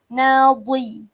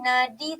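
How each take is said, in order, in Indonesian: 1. Huruf tengah adalah dh yang berat dan tebal. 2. Huruf tengah adalah d yang ringan dan tipis. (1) "Huruf isti'la, huruf tebal" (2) "Nadi tak boleh"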